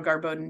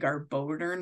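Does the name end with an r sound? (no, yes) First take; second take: no; yes. First: The name ends without an r sound. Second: The name ends with an added r sound. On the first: The speaker calls it right. "I think I did it okay that time because of the practice" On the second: The speaker calls it wrong. "I always mispronounce the Garboden. I always want to say Garbodern, like I'm going right into Murray"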